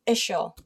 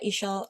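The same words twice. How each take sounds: First: "ischial" in a Filipino accent, ending ish-oh. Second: Said in the usual way. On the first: Real, not acted. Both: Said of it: "My Filipino accent again is coming out".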